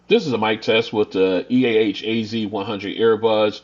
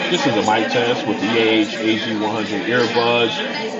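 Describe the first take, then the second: First: The voice is heard against a quiet background. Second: The voice is heard against a noisy crowd. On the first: "without A I function turned on in a quiet location" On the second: "with no A I function turned on in a crowded location"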